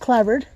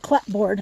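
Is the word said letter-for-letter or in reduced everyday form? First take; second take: reduced; letter-for-letter. First: It is said in a shortened, reduced everyday form. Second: It is said fully, sounding out each written part. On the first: "but it's pronounced clapboard" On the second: "it's spelled clapboard"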